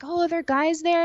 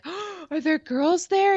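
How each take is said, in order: First: High, louder suspicious whine; mock the boyfriend's jealousy, pitched way up; jealous whine. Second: High, slow suspicious whine; jealous whine. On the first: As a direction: boyfriend grilling her about guys, high and whiny. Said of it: "And he'd be like". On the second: Retold or imitated. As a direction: whine it like a jealous girlfriend, pitched way up. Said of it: "And I'd be like".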